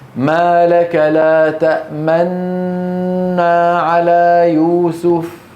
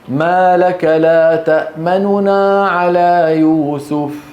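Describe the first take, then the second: First: One long n sound said with rounded lips. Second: Two n sounds, the first quick and quiet. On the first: "سندغم وننطق نون مشددة... سأضم شفتي" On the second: "أنا أنطق نونين، لكن النون الأولى أسرع عندها وأخفض صوتي"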